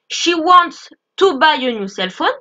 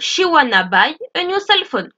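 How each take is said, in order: First: The words 'wants to' are said in full. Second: The words 'wants to' are contracted to 'wanna'. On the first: "si je dis" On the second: "je peux faire la contraction"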